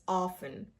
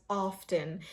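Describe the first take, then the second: First: Often as "off-en", T left out; silent T. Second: Often with the T sounded, "off-ten"; often as "OFF-tun"; common mispronunciation. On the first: Shown as a demonstration. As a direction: say often without any T. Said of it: "the T is silent here". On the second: Retold or imitated. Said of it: "many people pronounce it as".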